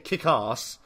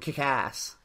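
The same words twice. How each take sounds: First: It is said in a posh British accent. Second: It is said in an American accent.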